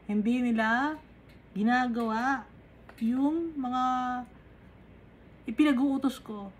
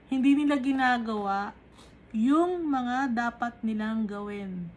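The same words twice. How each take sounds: First: "Hindi nila" then a pause, "ginagawa" then a pause, "yung mga" then a pause, each part set apart; word by word with pauses. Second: Said in the usual way. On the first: Shown as a demonstration. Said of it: "repeated with pause between words". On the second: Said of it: "first statement before broken repeat".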